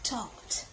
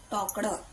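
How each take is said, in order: First: The ending is said as a bare consonant cluster. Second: The ending is said with an extra vowel syllable. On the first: This is how children say it today. "आताची पोरं" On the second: This is the older way it was taught. "आमच्या वेळा आमका कसा शिकवलेला होता"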